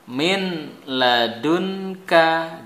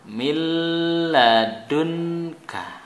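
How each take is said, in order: First: The n sound is clearly pronounced before l. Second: The n sound merges into a doubled l.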